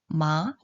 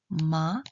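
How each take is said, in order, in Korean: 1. 중간에서 높은 쪽으로 올라가요. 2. 중간에서 높은 쪽으로 올라가요.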